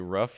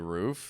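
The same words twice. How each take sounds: First: The vowel has a Chicago accent. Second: The vowel has a standard accent. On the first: The speaker calls it wrong. "you don't say" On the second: The speaker calls it right. "You say"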